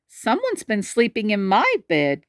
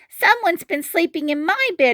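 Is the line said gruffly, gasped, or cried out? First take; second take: gasped; cried out. First: It is said with a breathy gasp. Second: It is cried out like a child.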